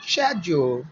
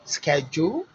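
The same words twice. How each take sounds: First: British "schedule" starting with SH; British pronunciation. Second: American "Schedule" starting with SK; hard K in "Schedule," American style; American pronunciation. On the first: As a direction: say "schedule," as "shed-jool". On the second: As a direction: say "Schedule," as "sked-jool", rising. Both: Shown as a demonstration.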